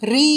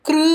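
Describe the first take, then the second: First: It is said with a long ee vowel. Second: It is said with a k sound before r. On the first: "சிலர் ரீ என்றும் ... உச்சரிப்பார்கள். அது தவறு" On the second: "க்ரு என்றும் உச்சரிப்பார்கள். அது தவறு"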